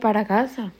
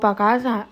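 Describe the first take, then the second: First: Para is said in full with two syllables. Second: Para is shortened to one syllable. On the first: "en vez que para casa" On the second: "O pa' casa en vez que"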